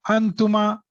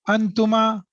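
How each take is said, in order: Both takes have the same delivery.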